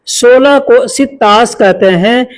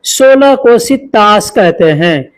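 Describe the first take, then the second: No difference in how they are said.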